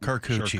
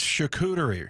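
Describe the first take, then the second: First: The word begins with a K sound. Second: The word begins with an SH sound. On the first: The speaker calls it wrong. "Not Carcucci" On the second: The speaker calls it right. "It's charcuterie, right?"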